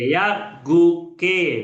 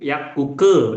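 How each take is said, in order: First: Each syllable is said separately with breaks. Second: The syllables run together as one word.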